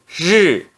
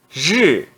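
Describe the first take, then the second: The two takes are said the same way.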